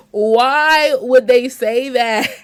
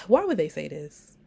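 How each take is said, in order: First: Drawn-out, louder and higher outcry of disbelief; loud, slow mock outrage. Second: Sighing, half-pained disbelief; a weary groan of a question; sighed out, almost whining; exasperated sigh. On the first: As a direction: stretch it out slowly in exaggerated shock. Repeats reaction to the quote. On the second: Reacting to a shocking quote. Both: Real, not acted.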